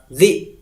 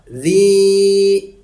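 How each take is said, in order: First: The vowel is cut short to one beat. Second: The vowel is held for two beats. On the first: The speaker calls it wrong. "Jangan satu harokat" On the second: The speaker calls it right. "Panjangkan dua harokat"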